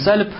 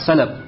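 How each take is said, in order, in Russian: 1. Между L и B гласный не слышен. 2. Между L и B слышен гласный A. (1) "Не сальб" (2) "С фатхой над лам"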